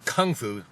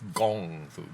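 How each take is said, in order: First: The first word begins with a K sound. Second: The first word begins with a G sound. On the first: The speaker calls it wrong. "that's not the proper way to say it anymore" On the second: The speaker calls it right. "Gong Fu is the correct way to say and spell Kung Fu"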